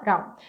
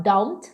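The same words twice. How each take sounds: First: "don't" as "ron", D tapped, T dropped; reduced form. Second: "don't" with a clear D; full consonants. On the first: Teacher showing the connected form, "don't" as "ron". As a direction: soften "don't" to "rone". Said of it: "fala don't". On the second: Teacher showing what to avoid, fully pronounced "don't". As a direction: sound the D in "don't". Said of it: "ao invés de falar don't". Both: Shown as a demonstration.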